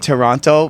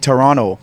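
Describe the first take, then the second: First: The middle T sound is clearly pronounced. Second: The middle T sound is dropped. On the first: This is how outsiders say the name. "we say Toronto" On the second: This is how locals say the name. "people from Toronto don't say the T"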